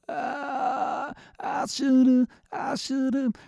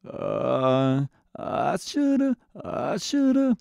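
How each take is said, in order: First: It has a rough grit from the throat. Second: It has a low creaky vocal fry.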